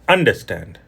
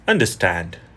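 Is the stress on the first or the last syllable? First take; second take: first; last. First: The stress is on the first syllable. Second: The stress is on the last syllable. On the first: The speaker calls it wrong. "So here is incorrect. ... here I emphasize at the beginning" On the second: The speaker calls it right. "but the emphasis should be on the end"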